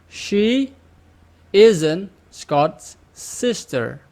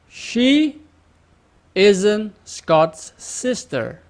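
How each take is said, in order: The two takes are said the same way.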